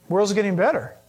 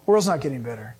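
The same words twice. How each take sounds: First: "World's getting better" parroted lightly, as a claim to knock down; mock quote. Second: "not" set firmly, the line dropped lower and grave; firm correction. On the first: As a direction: echo the naive claim before rejecting it. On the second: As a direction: flatly contradict the claim, low and serious. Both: Shown as a demonstration.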